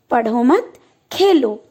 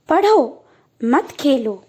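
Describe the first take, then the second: First: पढ़ो मत together, a clear pause, then Khelo; pause after मत. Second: पढ़ो, a clear pause, then मत खेलो together; slow reading split as "पढ़ो, मत खेलो"; pause after पढ़ो. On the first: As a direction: join मत to पढ़ो and break before Khelo. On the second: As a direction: break right after पढ़ो, joining मत to Khelo. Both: Shown as a demonstration. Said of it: "वाक्यों के अर्थ को परिवर्तित कर देता है".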